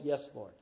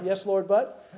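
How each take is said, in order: First: Said in the usual way. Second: "but" tacked on with a rising, hedging tune; louder, reluctant "Yes, Lord, but"; grudging yes with a but. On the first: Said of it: "it's always". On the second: Shown as a demonstration. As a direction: stress the "but" and let it rise like an excuse. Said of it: "Yeah, yeah".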